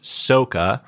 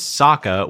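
First: "Soka" as SOH-kuh; film's mispronunciation. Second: "Sokka" as SOCK-uh; cartoon pronunciation. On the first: Host showing the film's butchered name, mispronounced "Soka" as SOH-kuh. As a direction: say "Soka" with a long O. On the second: Host giving the cartoon's name, original "Sokka" as SOCK-uh. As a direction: say "Sokka" with a short, open first vowel. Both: Shown as a demonstration. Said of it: "was pronounced Soka".

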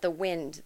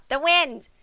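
First: Said in the usual way. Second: Higher, doddering grandma saying the wind; a grandma fumbling for the word; lightly voiced grandma. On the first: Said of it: "what do you call that". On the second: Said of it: "Here's Grandma".

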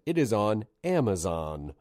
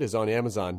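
First: Slowed down and clearly spaced; slow, deliberate repeat. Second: Barreled through quickly; said really fast. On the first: Shown as a demonstration. Host redoing a rushed plug for listeners, slow and deliberate. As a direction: say it carefully so it lands. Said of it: "gonna say it again". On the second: Real, not acted. Host rushing a plug for a guest's special, said fast. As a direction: rattle it off in passing. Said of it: "I said it really fast".

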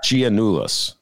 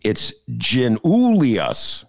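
First: Giannoulis said as jee-NOO-lis; clipped three-syllable Giannoulis; wrong pronunciation. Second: Giannoulias said slowly as zhee-NOO-lee-us; slow careful Giannoulias, NOO stressed; correct pronunciation. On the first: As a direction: Giannoulis without the lee-us ending. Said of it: "it's Giannoulias, not Giannoulis". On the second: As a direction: Giannoulias with four syllables, lee-us at the end. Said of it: "According to Eric Zorn". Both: Shown as a demonstration.

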